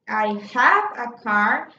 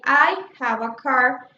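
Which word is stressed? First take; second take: have; I. First: The stress falls on the word have. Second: The stress falls on the word I. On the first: The person really does have a car. "if I change the stress to have" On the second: It is this person, not someone else, who has a car. "I'm giving the stress uh, to the word I"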